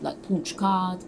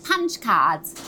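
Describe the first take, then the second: First: Slow Northern English accent. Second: Southern English accent. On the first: Showing the interviewer Lauren's Northern English punch card. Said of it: "Lauren was from the North". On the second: Showing how Missus Lovett would say it in Southern English. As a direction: Punch cards said Southern English and louder. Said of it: "Missus Lovett is from the South". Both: Shown as a demonstration.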